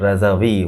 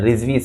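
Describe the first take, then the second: First: The name is said with three syllables. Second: The name is said with two syllables. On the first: The speaker calls it right. "रज़ावी होता है असल में" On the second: The speaker calls it wrong. "जिस तरह रिजवी सादात कह देते हैं"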